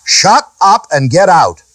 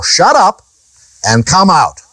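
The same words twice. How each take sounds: First: "Shut up and get out" said slowly, with "shut" hit hardest; firm command. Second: A brisk rebuke of the demon. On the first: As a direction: order the devil out, slow and deliberate. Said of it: "This is how you deal with the devil". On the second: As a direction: snap the rebuke out as Jesus. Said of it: "He rebuked him, saying". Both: Shown as a demonstration.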